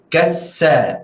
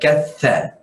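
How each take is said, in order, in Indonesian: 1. Huruf konsonan di tengah itu adalah bunyi 's' yang mendesis. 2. Huruf konsonan di tengah itu adalah bunyi 'th'. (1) "apabila kita sebut dengan cara yang salah, contoh kita sebut kassa bukan katha" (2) "huruf tha yang keluar dari dua ujung, ujung gigi seri atas bersama ujung lidah"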